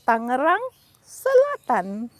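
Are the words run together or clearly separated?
separated. The two words are clearly separated. The speaker calls it right. "Separate the two words first"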